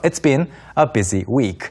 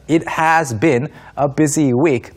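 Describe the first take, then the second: First: "It has" is contracted to "it's". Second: "It has" is said as two full words.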